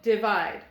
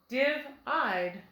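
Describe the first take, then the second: First: The stress is on the second syllable. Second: The stress is on the first syllable. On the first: The speaker calls it right. "try moving our accent to the end of the word" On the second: The speaker calls it wrong. "That still doesn't sound quite right"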